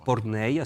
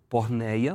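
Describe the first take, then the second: First: The word is pronounced in the Greek way. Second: The word is pronounced in a Portuguese way.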